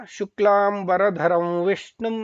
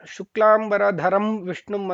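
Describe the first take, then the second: First: The nasal is a full m with closed lips. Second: The nasal is a full m with closed lips.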